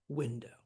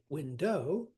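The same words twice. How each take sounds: First: The stress is on the first syllable. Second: The stress is on the second syllable. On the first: The speaker calls it right. "We say" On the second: The speaker calls it wrong. "We do not say"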